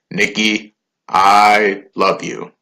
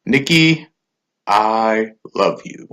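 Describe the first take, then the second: First: Slow stiff robot voice; slow, halting robot voice. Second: Slow robot voice, monotone drawl. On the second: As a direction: stretch it out like a robot. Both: Retold or imitated. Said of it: "in his robot voice".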